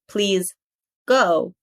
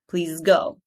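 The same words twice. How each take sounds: First: The two words are separated by a break. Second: The two words run together without a break. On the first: The speaker calls it wrong. "Not please go" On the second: The speaker calls it right. "don't take any pause"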